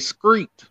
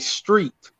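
First: The word begins with an 'scr' sound. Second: The word begins with an 'str' sound. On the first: This is how people down south say it. "Somewhere down south, they say screet" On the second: This is how New Yorkers say it. "In New York, we say street"

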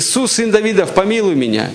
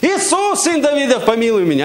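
First: It is called out less loudly. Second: It is shouted more loudly.

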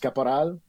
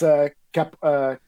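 First: The surname is said with a French accent. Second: The surname is said with an English accent. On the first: This is the Quebec French way. "there's the Francophone way, which is Caporal" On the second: This is the English school way. "when I went to an English school... They pronounce the E"

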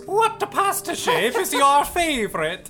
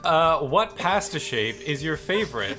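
First: It is read in an exaggerated Italian accent. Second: It is read in the speaker's ordinary accent.

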